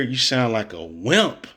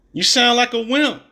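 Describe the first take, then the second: First: Said in the usual way. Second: Higher and louder, hitting wimp; emphatic louder repeat. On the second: Real, not acted. Mocking Steve Kerr, now louder and emphatic. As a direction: repeat it with more force, stress on wimp.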